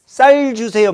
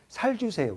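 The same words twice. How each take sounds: First: "쌀" with a tense doubled ss, said high and louder; correct pronunciation. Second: Gyeongsang "살 주세요" with a plain soft s instead of ss; Gyeongsang accent. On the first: Shown as a demonstration. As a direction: demonstrate the proper "쌀 주세요". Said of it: "쌀을 못해". (된소리로 또렷하게 "쌀 주세요") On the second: Retold or imitated. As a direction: imitate a Gyeongsang speaker who can't say "쌀". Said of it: "말 못해". (경상도 사투리로 "쌀"을 "살"이라고 발음)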